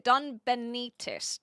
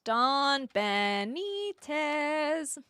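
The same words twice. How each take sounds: First: Said in the usual way. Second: Drawn-out name. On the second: Shown as a demonstration.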